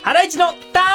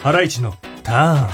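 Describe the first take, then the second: First: It is said with lively, high energy. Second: It is said in a low, subdued way.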